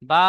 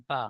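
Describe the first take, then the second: First: বা with the vowel stretched long; wrongly drawn-out বা. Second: বা with a brief vowel; short বা. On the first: Teacher shows the mistake to avoid, drawn-out বা. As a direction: drag out the vowel of বা. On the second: Teacher shows the correct joined syllable, short বা. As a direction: say বা short, without stretching it. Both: Shown as a demonstration. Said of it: "বলে টান হবে না".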